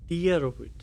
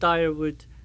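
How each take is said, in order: First: The first syllable sounds like 'dear'. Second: The first syllable sounds like 'dire'. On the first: The speaker calls it right. "D double E R, dear" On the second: The speaker calls it wrong. "don't tire wood"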